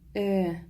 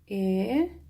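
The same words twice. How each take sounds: First: The vowel is said short. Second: The vowel is drawn out long. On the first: "В слове «эшлекле» и «элек» «э» произносится коротко" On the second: "в слове «элеватор» и «энергия» «э» произносится протяжнее"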